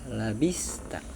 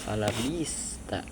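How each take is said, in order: The two takes are said the same way.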